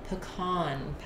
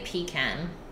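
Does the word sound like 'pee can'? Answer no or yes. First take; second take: no; yes. First: The word does not sound like 'pee can'. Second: The word sounds like 'pee can'. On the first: It names the nut. The speaker calls it right. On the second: It names a portable toilet. The speaker calls it wrong.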